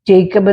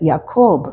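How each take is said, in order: First: The name begins with a J sound. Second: The name begins with a Y sound. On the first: "ജേക്കബ് എന്ന് നമ്മൾ പറയുമെങ്കിലും" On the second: "you can read it as യാക്കോബ്"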